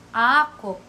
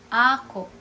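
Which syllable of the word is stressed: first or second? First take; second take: first; first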